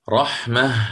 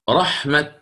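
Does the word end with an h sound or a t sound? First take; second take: h sound; t sound. First: The word ends with an h sound. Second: The word ends with a t sound. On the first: The word is written with a closed ta in the Quran text. "وقفا بالهاء؟ رحمة هكذا" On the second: The word is written with an open ta in the Quran text. "والثانية التي فيها التاء المبسوطة كيف أقف عليها؟"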